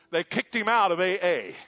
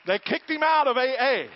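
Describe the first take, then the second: First: Raised preaching voice. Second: Much higher and louder, shouted from the pulpit; full preaching shout. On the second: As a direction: drive it home as a roaring climax. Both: Real, not acted.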